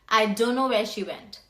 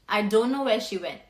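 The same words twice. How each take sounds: First: The words don't know are reduced to dunno. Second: The same.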